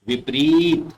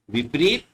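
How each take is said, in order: First: विपरीत with a drawn-out ee; long vowel. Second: विपरीत with a quick short i; short vowel. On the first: Teacher models correct विपरीत, stretching the ee. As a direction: say विपरीत as "vip-reeet". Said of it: "सही होता है वो ये होता है". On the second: Teacher shows the mistaken विपरीत with short i. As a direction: say विपरीत as "vip-rit". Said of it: "छोटी मात्रा है तो छोटा उच्चारण". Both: Shown as a demonstration.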